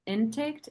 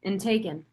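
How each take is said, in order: First: Intaked, a wrong try said with a slight rise; fumbled word form. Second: Intaken, settled on as the right word; corrected word form. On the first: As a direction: stumble over intaked before correcting. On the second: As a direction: land on intaken plainly. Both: Real, not acted. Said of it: "intaked, intooken, intaken".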